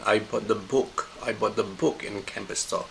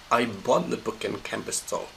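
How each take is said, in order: First: "book" given the main stress. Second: "bought" given the main stress. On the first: Teacher showing nothing else was bought, stress on "book". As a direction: lean on the word "book", the rest unstressed. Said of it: "I didn't buy anything else". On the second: Teacher showing the message is buying, stress on "bought". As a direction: lean on the word "bought", the rest unstressed. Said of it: "I didn't borrow the book, but I bought". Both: Shown as a demonstration.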